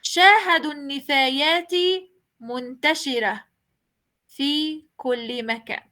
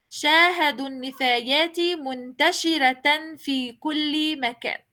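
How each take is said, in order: First: شاهدوا النفايات fast, then a pause, منتشرة ending in h; pausing reading. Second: شاهدوا النفايات منتشرة في كل مكان read straight through, منتشرة with ta; continuous reading. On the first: Teacher showing the pausing way to students. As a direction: stop at منتشرة and drop the ta. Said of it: "La otra manera". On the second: Teacher reading without stopping to show the ta. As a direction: keep going, say منتشرة as muntashiratan. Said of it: "en dos maneras". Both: Shown as a demonstration.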